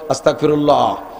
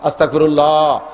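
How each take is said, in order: First: It is said short and brief. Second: It is drawn out somewhat longer.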